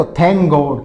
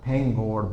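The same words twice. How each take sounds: First: Loud, careful demo; loud model phrase. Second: Said in the usual way. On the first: Shown as a demonstration. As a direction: present it to the class. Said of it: "फिर देखो". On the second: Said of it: "कितनी बार बोलते हैं ना".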